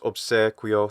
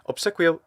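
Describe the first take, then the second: First: The E vowel is said long. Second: The E vowel is said short.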